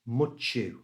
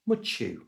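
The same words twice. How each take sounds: First: The word is said at a slower pace. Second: The word is said at a faster pace.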